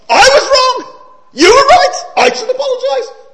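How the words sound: It is read with strong, marked emotion.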